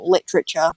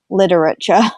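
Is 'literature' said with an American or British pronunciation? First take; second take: British; American. First: It is said with a British pronunciation. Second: It is said with an American pronunciation. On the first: The speaker calls it wrong. "we just go literature" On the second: The speaker calls it right. "the way Americans say it"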